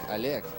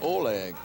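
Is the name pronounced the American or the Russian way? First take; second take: Russian; American. First: The name is said with Russian pronunciation. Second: The name is said with American pronunciation. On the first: "In Russian, it sounds like" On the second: "Americans would just pronounce it like"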